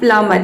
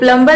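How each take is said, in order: First: No b sound is pronounced in the middle. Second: A b sound is pronounced in the middle. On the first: The speaker calls it right. "ये होता है प्लमर, इसमें बी silent है" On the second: The speaker calls it wrong. "ये प्लम्बर नहीं होता है"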